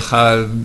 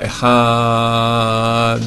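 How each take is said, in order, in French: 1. La consonne finale ne s'entend pas du tout. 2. Le a est allongé et finit par un d net. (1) "à la fin on n'entend rien" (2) "on rallonge dans le A"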